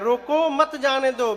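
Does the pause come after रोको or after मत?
after रोको. The pause comes after रोको.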